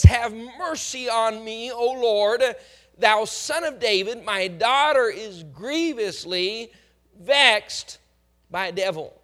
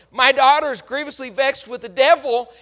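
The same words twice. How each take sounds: First: Slow, louder cry for mercy; pleading for mercy. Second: Daughter's plight cried out loud; louder plea. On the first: Mother begs Jesus to heal her daughter, pleading. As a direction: beg the Lord for help, a touch of weeping. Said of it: "She's beseeching the Lord Jesus Christ for help". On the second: Mother cries out for her vexed daughter, louder plea. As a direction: press the plea harder and louder. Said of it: "She says the right words superficially". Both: Retold or imitated.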